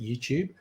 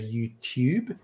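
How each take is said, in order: First: The middle consonant is a ch sound. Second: The middle consonant is a plain t sound. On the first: This is the Australian pronunciation. "we say ch" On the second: This is the American pronunciation. "Americans tend to say YouTube"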